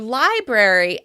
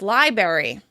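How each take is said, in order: First: The R sound is pronounced. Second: The R sound is dropped.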